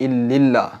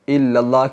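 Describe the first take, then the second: Both takes have the same delivery.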